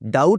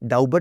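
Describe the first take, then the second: First: The b sound is silent. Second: The b sound is pronounced before the t. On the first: The speaker calls it right. "जैसे डाउट बोलते हैं" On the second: The speaker calls it wrong. "डाउबट नहीं बोलते"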